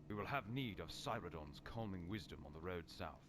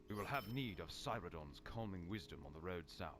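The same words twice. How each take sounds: Both takes have the same delivery.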